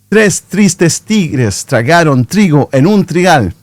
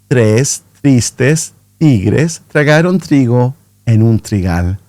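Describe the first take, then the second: First: The sentence is spoken at a fast pace. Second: The sentence is spoken at a medium pace. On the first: "a little bit faster" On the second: "natural speed, so not too fast, not too slow"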